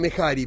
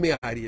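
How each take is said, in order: First: An h sound is heard in the middle. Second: No h sound is heard in the middle. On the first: This is how people commonly say it. The speaker calls it wrong. "vulgarmente dicen Mehari" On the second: This is the proper form of the name. The speaker calls it right. "pero es Meari, la palabra correcta es Meari"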